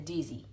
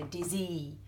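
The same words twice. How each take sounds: First: The final syllable is weak and falls away. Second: The final syllable is stressed and punchy. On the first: The speaker calls it right. "we say dizzy. So the E sort of falls away" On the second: The speaker calls it wrong. "we don't put a big punchy emphasis on the end. We don't say dizzy"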